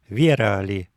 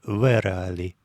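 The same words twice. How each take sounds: First: The v before e is softened. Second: The v before e stays hard. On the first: This is how most native speakers say it. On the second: This is the textbook pronunciation. "вместо «верали»"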